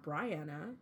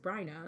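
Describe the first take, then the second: First: The name is said as Brianna. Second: The name is said as Bryna. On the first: The speaker calls it wrong. "It is not Brianna" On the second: The speaker calls it right. "It is Bryna"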